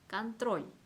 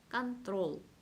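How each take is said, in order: First: The final L sound is soft. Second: The final L sound is hard. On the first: The speaker calls it right. "부드러운 기호가 있으면 이 롤을 부드럽게 발음을 하셔야 합니다" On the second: The speaker calls it wrong. "부드러운 기호가 없었다 그랬다면 이렇게 발음을 했을 거예요"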